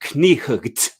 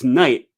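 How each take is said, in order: First: The word starts with a sounded k. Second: The word starts with a plain n. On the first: The speaker calls it wrong. "I'm pretty sure you don't say knight" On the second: The speaker calls it right. "It's it's pronounced night"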